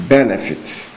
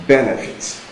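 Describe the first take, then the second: Both takes have the same delivery.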